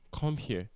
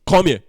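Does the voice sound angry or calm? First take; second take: calm; angry. First: It is said in a calm tone. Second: It is said in an angry tone. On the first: It is a simple request to come. "in my calm tone" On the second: The speaker is upset with the listener. "the tone in my voice sounds if I was angry"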